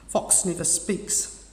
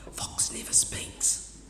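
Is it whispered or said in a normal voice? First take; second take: normal; whispered. First: It is said in a normal voice. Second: It is said in a whisper.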